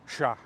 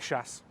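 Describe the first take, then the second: First: The word is one syllable with no final consonant. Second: The word is one syllable ending in s. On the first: "it gets even shorter than chasse" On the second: "One syllable, quick, gets the job done"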